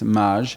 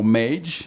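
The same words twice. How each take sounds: First: The surname has a French pronunciation. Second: The surname has an American English pronunciation. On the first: "in French it's Mage" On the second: "in America"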